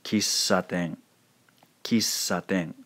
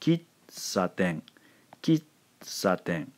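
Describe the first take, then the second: First: Kissaten with a long continuous ss and no silent gap; hovering on S. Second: Kitsaten slow, with ki cut off and a silent gap before saten; silent-syllable mistake. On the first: Teacher correcting the silent version, elongated ss in Kissaten. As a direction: sustain the S of Kissaten into saten. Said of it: "hover on this sound for just a second". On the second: Teacher showing how they don't pronounce it, Kitsaten broken by silence. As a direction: stop dead after Kit, wait a beat, then saten. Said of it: "pronounce it for you that way". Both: Shown as a demonstration.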